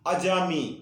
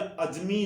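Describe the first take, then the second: First: The word is said with three syllables. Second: The word is said with two syllables. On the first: The speaker calls it right. "कहना चाहिए अजामी" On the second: The speaker calls it wrong. "उन्हें अज अजमी नहीं कहते"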